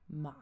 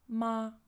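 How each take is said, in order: First: The pitch falls and then rises again. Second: The pitch stays high and level throughout. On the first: "on descend puis on remonte" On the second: "assez haut perché et tout plat"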